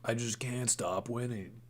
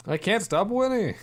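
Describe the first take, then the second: First: Quiet. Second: Much higher and louder; triumphant cheer at a win; excited shout. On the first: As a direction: mutter the boast under the breath. Same boast, said much softer. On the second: Gambling streak, triumphant cheer. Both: Real, not acted.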